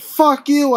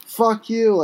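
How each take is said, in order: First: Loud, much higher snap; angry snap. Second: Breathless, deflated last insult; winded spit. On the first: Arrested man snaps at the calm cop. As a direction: spit it back in defiance. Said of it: "I snap". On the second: Beaten and winded, he spits a final insult. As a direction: spit it out with no fight left. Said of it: "I spit one last time, feeling winded". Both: Acted.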